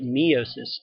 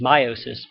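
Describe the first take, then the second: First: The first syllable sounds like the word 'me'. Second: The first syllable does not sound like 'me'.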